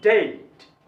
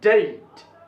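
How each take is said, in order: The two takes are said the same way.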